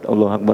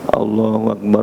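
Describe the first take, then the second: First: The phrase is said quickly and briskly. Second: The phrase is said slowly and drawn out. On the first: It is the call to stand for prayer. "Kalau iqamah cepat" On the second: It is the call to prayer.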